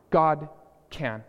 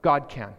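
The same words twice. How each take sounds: First: Two separate words, slow and deliberate; God and can split by a pause. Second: Said in the usual way. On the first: Shown as a demonstration.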